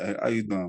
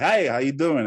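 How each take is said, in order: First: It is said in a relaxed, casual voice. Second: It is said in a polished radio-personality voice.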